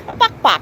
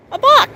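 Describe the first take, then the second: First: Said in the usual way. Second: Coaxing high call. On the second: Shown as a demonstration.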